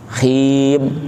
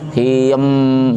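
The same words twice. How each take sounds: First: The final m stops abruptly with no hum. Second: The final m is drawn out with extra sound. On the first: The speaker calls it right. "udah berhenti" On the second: The speaker calls it wrong. "jangan him, jangan"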